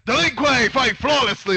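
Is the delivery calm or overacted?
overacted. The line is delivered in an exaggerated, overdone way. The speaker calls it wrong. "like dude, fucking chill"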